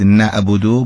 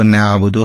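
First: نعبدو with a Persian glottal sound for ع; Persian-style ع in نعبدو; Persian pronunciation. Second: نعبدو with a true pharyngeal ع; Arabic-style ع in نعبدو; Arabic ayn. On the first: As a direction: say نعبدو without the Arabic pharyngeal ع. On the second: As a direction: squeeze the ع of نعبدو in the throat. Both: Shown as a demonstration.

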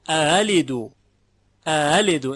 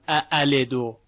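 First: اعلدو with the second hamza gliding like a bare short a; no hard second catch in اعلدو; eased second hamza. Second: اعلدو with both hamzas fully caught; two firm glottal onsets in اعلدو; unsoftened second hamza. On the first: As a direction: run smoothly into the second vowel of اعلدو. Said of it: "مثل اینه که فقط یه فتحه". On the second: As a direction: make a hard break before the second vowel of اعلدو. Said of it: "نمیگوییم اعلدو". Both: Shown as a demonstration.

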